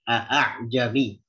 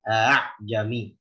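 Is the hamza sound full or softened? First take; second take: full; softened. First: The glottal stop is pronounced fully and clearly. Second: The glottal stop is eased toward a vowel. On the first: "baca dengan tahqiq dia" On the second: "Jadi kalau di bacaan Hafs justru ditah, ditaskil"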